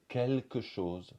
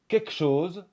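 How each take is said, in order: First: The L in 'quelque' is pronounced. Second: The L in 'quelque' is dropped. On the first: "au lieu de" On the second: "On va dire souvent"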